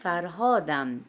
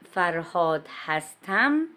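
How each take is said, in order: First: Only -am is attached to the end of the name. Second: The verb hastam is said as a separate word. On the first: This is the casual spoken style. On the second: This is the formal written style.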